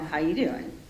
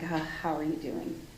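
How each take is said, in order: First: It is said flirtatiously, like Joey from Friends. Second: It is said with empathy and concern.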